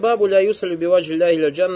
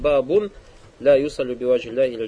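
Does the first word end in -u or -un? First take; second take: -u; -un. First: The first word ends with an -u sound. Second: The first word ends with an -un sound. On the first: The heading word is joined to what follows. "он «баб» как использует, как «мудаф»" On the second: The heading word stands alone, not joined to what follows. "Иногда «бабун», то есть делает уже не «мудаф», а как отдельное слово"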